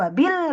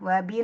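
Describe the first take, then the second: First: The word is pushed with strong stress. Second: The word is said plainly without extra stress. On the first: The speaker calls it wrong. "nggak usah wabil nggak ditekan" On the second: The speaker calls it right. "wabil gitu aja"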